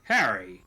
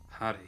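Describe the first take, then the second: First: The name is said in an irritated, annoyed tone. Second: The name is said in a plain, neutral tone. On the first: He resents being told off. "like he's kind of pissed" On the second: He is simply addressing the other person. "like he's just like addressing him"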